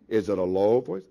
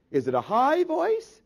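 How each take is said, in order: First: Loud question sunk into a low register. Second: Loud question climbing into a high register. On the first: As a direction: drop the pitch on "low voice". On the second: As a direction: pitch jumps way up on "high voice". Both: Shown as a demonstration.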